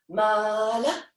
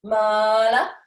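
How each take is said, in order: First: Said in the usual way. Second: Mala sung out louder with a rising lift; accented mala. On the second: Shown as a demonstration. Dance teacher calling the step to class, louder rising Mala. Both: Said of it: "I prefer syllables".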